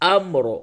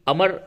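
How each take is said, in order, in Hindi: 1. m और r बिना किसी स्वर के जुड़ जाते हैं। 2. m और r के बीच एक स्वर डाला जाता है। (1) "बल्कि अम्र" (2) "इस जगह पे भी अमर नहीं बोलेंगे"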